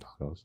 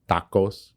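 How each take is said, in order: First: The word is said with an English accent. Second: The word is said with a Spanish accent. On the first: It is the ordinary everyday name. The speaker calls it right. "just call them fucking tacos" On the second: The speaker is showing off Mexican heritage. The speaker calls it wrong. "she'll pronounce it tacos just because we're in the restaurant"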